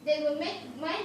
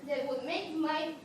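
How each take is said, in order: The two takes are said the same way.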